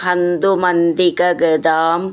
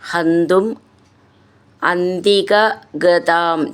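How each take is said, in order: First: The two words are run together. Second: The two words are said separately.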